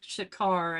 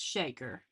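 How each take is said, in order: First: The name ends with an 'ar' sound. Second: The name ends with an 'er' sound. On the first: The speaker calls it wrong. "people want to pronounce it Shakar" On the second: The speaker calls it right. "it's Shaker"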